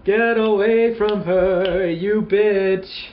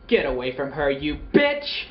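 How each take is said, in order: First: It is said in an exaggerated vaudeville voice. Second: It is said in a plain movie-style voice.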